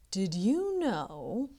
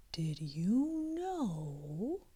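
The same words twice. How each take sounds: First: Said in the usual way. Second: Slow secret whisper. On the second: A narrator's reading. Unicorn sharing a secret with Kitty, slow whisper. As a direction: lean in and breathe it slowly. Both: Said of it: "whispering now".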